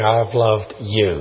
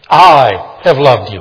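First: The stress is on the word you. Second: The stress is on the word I. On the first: "just emphasize each word" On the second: "Others don't, but I have loved you"

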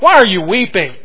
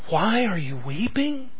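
First: It is asked in a hard, sharp tone. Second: It is asked in a gentle, caring tone. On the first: The asker is impatient with the grief. "Was there a harder edge to it?" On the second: The asker cares about the grief. "Was this asked out of deep concern?"

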